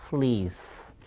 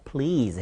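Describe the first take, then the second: First: Please said as "fleas"; drawn-out wrong please, "fleeze"; p swapped for f. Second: Please with a clean p; correct p. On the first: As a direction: start please with f instead of p. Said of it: "발음을 거꾸로". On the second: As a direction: pop the lips to start please. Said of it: "please 해야 되는데". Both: Shown as a demonstration.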